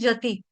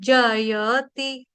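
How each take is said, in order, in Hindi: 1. बीच का 'ya' अक्षर छूट जाता है, तो jati बनता है। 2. तीनों अक्षर बोले जाते हैं, साफ 'ya' के साथ। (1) "यहाँ पे जयति बोला जाता है गलती से, जति" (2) "य का उच्चारण खास तौर पे साफ साफ होना चाहिए"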